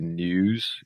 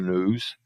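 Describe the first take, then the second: First: A y sound comes before the vowel. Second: No y sound comes before the vowel. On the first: "uma pronúncia britânica, fazendo o som do I aqui" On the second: "aqui a pronúncia americana"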